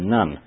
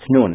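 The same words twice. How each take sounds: First: The name is said the English way. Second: The name is said the original Hebrew way. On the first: "In English it says Nun" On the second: "It's Nun"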